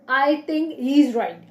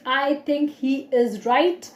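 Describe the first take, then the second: First: 'He is' is shortened into one quick syllable. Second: Both words 'he is' are said in full. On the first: "I can say I think he's right" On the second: "Instead of saying I think he is right"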